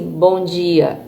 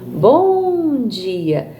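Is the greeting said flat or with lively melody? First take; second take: flat; lively melody. First: The greeting is said flat, without melody. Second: The greeting is said with a lively melody. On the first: The speaker calls it wrong. "Ele não fica assim" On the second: The speaker calls it right. "Ele fica bom dia, né? Então eu tô dando essa entonação"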